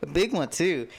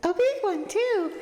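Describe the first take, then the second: First: Milder voice, only moderately raised; toned-down character voice. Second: Very high-pitched silly voice; silly character voice. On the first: Redoing Tressa's line after giving up that voice, toned-down and lightly raised. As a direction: drop the squeal, keep a lightly lifted character voice. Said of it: "We won't give her that voice". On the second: Voicing Tressa the game character in a silly voice, very high. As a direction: squeal it in a put-on, sky-high voice. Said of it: "No, don't give Tressa this voice". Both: Acted.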